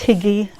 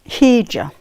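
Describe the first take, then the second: First: The word ends with an 'ee' sound. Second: The word ends with an 'ah' sound. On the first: The speaker calls it wrong. "I always think it's Higgy. Kim corrects me" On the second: The speaker calls it right. "I'm sure it's Hija"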